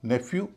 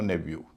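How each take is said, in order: First: The middle consonant is an f sound. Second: The middle consonant is a v sound. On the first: "इसके दो उच्चारण होते हैं" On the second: "इसके दो उच्चारण होते हैं"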